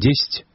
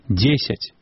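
First: An unstressed vowel is swallowed and dropped. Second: Every unstressed vowel is fully pronounced. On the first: The speaker calls it wrong. "не «десять»" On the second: The speaker calls it right. "говорим"

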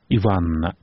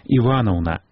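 First: A middle vowel is swallowed and dropped. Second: Every sound in the word is pronounced. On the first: The speaker calls it wrong. "не Иванна" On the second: The speaker calls it right. "усе гуки так само повинны быть захованные"

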